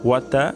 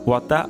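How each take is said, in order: The two takes are said the same way.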